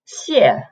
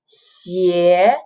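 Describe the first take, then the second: First: The syllable is said with a non-second tone. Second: The syllable is said with the second tone. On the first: It means thank you. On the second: It means shoes.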